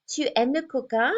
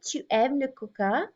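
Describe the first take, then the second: First: "Tu aimes le coca" as a spoken question, rising at the end; rising question intonation. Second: Said in the usual way. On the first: Shown as a demonstration. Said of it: "Here I use intonation". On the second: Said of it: "I have my statement".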